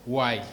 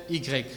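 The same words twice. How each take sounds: First: Y said the English way, "why"; Y sounded just like "why"; English letter name. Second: Y said the French way, "i grec"; Y in two French syllables, "i-grec"; French letter name. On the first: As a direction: give Y its English name, one syllable "wai". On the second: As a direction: give Y its French name, "ee-grek". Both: Shown as a demonstration. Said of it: "Les anglophones prononcent la lettre Y".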